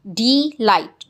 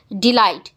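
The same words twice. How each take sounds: First: delight broken in two, "dee, light"; split into syllables. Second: Said in the usual way. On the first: Shown as a demonstration. Teacher showing the two syllables, delight split as "dee... light". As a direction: say delight as two separate beats. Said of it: "टू syllable है".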